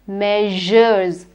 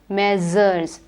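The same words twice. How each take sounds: First: The middle consonant is a 'zh' sound. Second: The middle consonant is not a 'zh' sound. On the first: The speaker calls it right. "It is measures" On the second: The speaker calls it wrong. "or measures"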